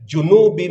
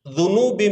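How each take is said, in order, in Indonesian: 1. Kata ini diawali dengan bunyi j. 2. Kata ini diawali dengan bunyi dz. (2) "Yang betul zunub zunubi"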